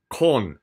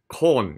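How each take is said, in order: No difference in how they are said.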